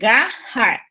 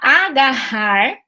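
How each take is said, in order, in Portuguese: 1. A vogal inicial some; a palavra começa com consoante. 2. A palavra começa com um som de vogal inicial. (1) "eles falam garrar" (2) "em vez de falar agarrar"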